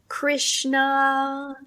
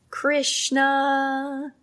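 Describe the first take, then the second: No difference in how they are said.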